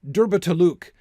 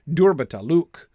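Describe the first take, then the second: First: The stress is on the first and fourth syllables. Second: The stress is on the first and fourth syllables.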